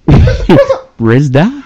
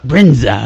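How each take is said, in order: First: The middle sounds are z then d. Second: The middle sounds are n then z. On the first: The speaker calls it wrong. "say this guy's name like it's a record scratch" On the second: The speaker calls it right. "that sounds better"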